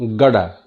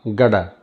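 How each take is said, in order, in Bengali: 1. শব্দগুলো মিশে গিয়ে একটি ছোট শব্দে পরিণত হয়। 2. শব্দগুলো মিশে গিয়ে একটি ছোট শব্দে পরিণত হয়।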